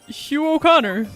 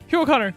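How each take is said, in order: First: It is yelled angrily at normal speed. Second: It is yelled angrily at a faster speed.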